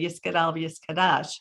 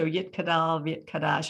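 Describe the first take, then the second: First: The words are said with an S sound. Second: The words are said with a T sound. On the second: It follows the later Israeli standard. "as opposed to"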